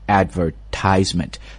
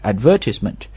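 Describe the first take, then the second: First: The stress is on the third syllable. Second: The stress is on the second syllable. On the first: "if you're speaking American accent, You just change the stress 在这个 tie 上面" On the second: "如果是英式英语呢，这个单词的重音是在 v 上面，是一个长音的 a 音啊 So that's British accent"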